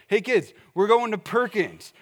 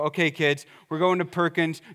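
First: It sounds cheerful and excited. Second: It sounds stern and threatening.

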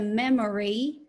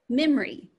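First: The middle vowel is fully pronounced. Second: The middle vowel is reduced to schwa. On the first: "Instead of memory" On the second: "it might become memory"

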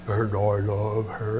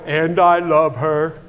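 First: It is said in Juliet's lowered child voice. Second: It is said in the speaker's normal voice.

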